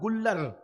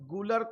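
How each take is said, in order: First: The middle l sound is doubled and held. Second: The middle l sound is short and single. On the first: The everyday form of the speaker's home town. "वरना अगर नीचे बैठता तो कहता गुल्लर" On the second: The careful form suits an educated audience. "थोड़ा सा पढ़े लिखे बैठे हुए दाएं बाएं"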